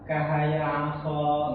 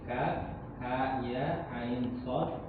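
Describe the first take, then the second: First: The letters are run together as short syllables. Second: Each letter is said by its full name. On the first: The speaker calls it wrong. "nggak begini bacanya" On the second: The speaker calls it right. "cara bacanya ini dipotong-potong"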